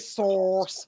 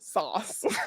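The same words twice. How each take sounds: First: The vowel rhymes with horse. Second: The vowel rhymes with cross. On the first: "we don't say sauce" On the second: "We say sauce"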